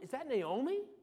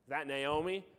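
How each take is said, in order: First: It sounds confused and puzzled. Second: It sounds sarcastic and mocking.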